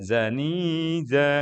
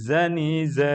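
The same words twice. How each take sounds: First: The final vowel is drawn out long. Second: The final vowel is cut short. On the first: The speaker calls it wrong. "jangan sampai dibaca zani za enggak" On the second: The speaker calls it right. "di akhir itu pendek ya"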